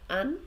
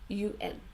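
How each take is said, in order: First: It is read as a single word. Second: It is spoken as two separate letters. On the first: The speaker calls it wrong. "So not un" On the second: The speaker calls it right. "we say U N"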